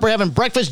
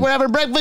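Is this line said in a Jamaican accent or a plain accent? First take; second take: plain; Jamaican. First: It is said in the speaker's ordinary accent. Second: It is said in a put-on Jamaican accent.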